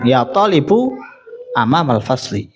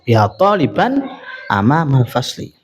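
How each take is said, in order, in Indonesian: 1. Kata talib berakhir dengan bunyi -u. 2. Kata talib berakhir dengan bunyi -an. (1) "Gak boleh kita bilang" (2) "maka wajib dibaca nasab"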